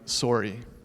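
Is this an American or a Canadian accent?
Canadian. It is said in a Canadian accent. "they would say something like sorry"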